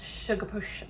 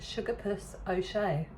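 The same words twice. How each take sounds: First: "sugar push", puss slipping into "push"; tongue-tied slip. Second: Said in the usual way. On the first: Real, not acted. Host trips over the cocktail's hard-to-say name, tongue-tied. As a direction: stumble into a sh at the end of "sugar push". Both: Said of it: "it's quite hard to say it".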